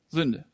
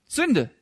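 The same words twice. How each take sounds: First: Said in the usual way. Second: Sünde thrown out high and firm; emphatic repeat. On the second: Shown as a demonstration. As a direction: hammer the word Sünde home. Word repeated, second louder.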